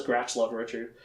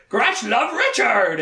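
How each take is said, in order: First: Said in the usual way. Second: Creature voice. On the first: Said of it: "He pretty much just says". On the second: Retold or imitated. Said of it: "He can't actually talk that much".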